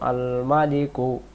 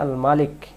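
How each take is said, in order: First: The word ends with an added short u vowel. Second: The word ends on the consonant k. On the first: The reading continues on without stopping. "এভাবে করে পড়ে যাই" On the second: The reader stops and takes a breath here. "এখানে দম ফেলে দিলে"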